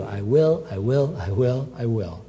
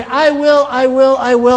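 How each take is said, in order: First: Softer, lower "I will" repeated, fading; whisper-close reassurance to one listener; soft promise. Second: Loud, high, emphatic "I will" repeated; booming declaration. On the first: Preacher voices God's gentle promise. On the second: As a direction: proclaim it like a promise that can't fail. Preacher voices God's emphatic promise. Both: Acted.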